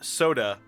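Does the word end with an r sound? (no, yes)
no. It ends in a plain vowel, no r.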